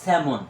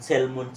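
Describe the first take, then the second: First: The l is silent in the middle. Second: The l is sounded in the middle. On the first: The speaker calls it right. "এটা হবে স্যামন।" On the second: The speaker calls it wrong. "আসলে এটা কিন্তু সেলমন না"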